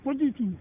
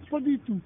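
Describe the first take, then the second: No difference in how they are said.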